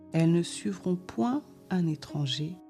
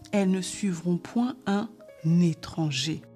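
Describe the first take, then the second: The two takes are said the same way.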